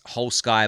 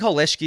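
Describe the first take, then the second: First: The name is read as English 'whole sky'. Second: The name is said the German way. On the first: The speaker calls it wrong. "I'm just saying Whole Sky because I'm, I'm an English speaker" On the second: The speaker calls it right. "I think Holeshki is the right pronunciation"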